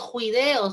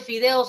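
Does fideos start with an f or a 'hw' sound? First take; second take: hw; f. First: The word starts with a breathy 'hw' sound. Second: The word starts with an f sound. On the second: "en vez de fideos"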